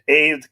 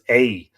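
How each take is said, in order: First: The name ends with a clear D sound. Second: The name ends in a vowel with no D. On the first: The speaker calls it wrong. "I'm going to put the D on it" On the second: The speaker calls it right. "It's just A"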